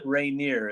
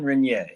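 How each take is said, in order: First: The name is pronounced in an English way. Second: The name is pronounced in a French way. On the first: The speaker calls it wrong. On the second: The speaker calls it right.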